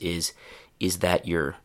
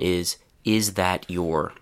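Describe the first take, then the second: First: Your is said with a short reduced vowel. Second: Your is said with a long full vowel. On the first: "the first reduction, the one with the least changes" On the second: "The full form"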